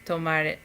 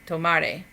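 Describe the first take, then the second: No difference in how they are said.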